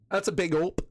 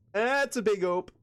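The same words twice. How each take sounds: First: Said in the usual way. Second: Playful Michigan twang on "ope"; drawn-out Michigan ope. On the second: Shown as a demonstration. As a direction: say "That's a big ope" slower and higher, stretching it. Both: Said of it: "another thing Michiganders say".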